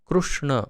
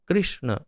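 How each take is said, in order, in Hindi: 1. पहले अक्षर में r के बाद 'u' स्वर है। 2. पहले अक्षर में r के बाद 'i' स्वर है। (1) "क्रू जो है वो गुजरात में या उड़ीसा में कृष्ण ऐसा उच्चारण होता है" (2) "अन्य सब जगह कृष्ण उच्चारण करते हैं"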